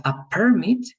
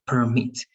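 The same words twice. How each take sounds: First: PERmit, PER punched higher; stress on first syllable. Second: PerMIT, weight falls on MIT; stress on second syllable. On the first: Teacher contrasting license word with verb, "permit" stressed high on PER. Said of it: "if it's in the first part". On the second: Teacher repeating the action word for student, "Permit" stressed on MIT. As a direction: verb "Permit" stressed at the end. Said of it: "in the second syllable". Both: Shown as a demonstration.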